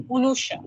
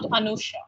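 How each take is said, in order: First: "Unusha" opening on a rounded o/u vowel; Bengali pronunciation. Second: Said in the usual way. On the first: Shown as a demonstration. Teacher saying her name as in Bengal, Bengali pronunciation. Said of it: "gets pronounced in Bengal". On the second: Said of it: "not Anusha".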